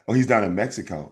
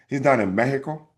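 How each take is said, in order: First: Mexico is said with a plain English accent. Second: Mexico is said with a Spanish accent.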